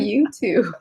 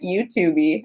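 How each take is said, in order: First: The word ends without any extra vowel sound. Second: An extra vowel sound is added at the end. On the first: The speaker calls it right. "we say YouTube" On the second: The speaker calls it wrong. "You're adding an E on the end"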